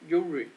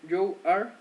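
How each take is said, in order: First: The words are contracted into one syllable. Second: Two separate full words are said.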